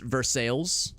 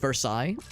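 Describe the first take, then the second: First: It is said with the local Missouri pronunciation. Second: It is said with the French pronunciation. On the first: "but it's pronounced Versailles" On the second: "spelled the same way as Versailles"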